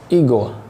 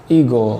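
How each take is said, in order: Both takes have the same delivery.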